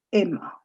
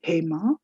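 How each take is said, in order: First: 'Emma' for Hema, starting straight on the vowel; 'Emma', the name with its H left silent; French-style dropped H. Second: 'Hema' with an audible H at the start; 'Hema' as usual, HAY-ma; H sounded. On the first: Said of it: "a Frenchman could possibly pronounce that as". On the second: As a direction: say the name 'Hema' with its breath of H. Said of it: "maybe someone who's called maybe". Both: Shown as a demonstration.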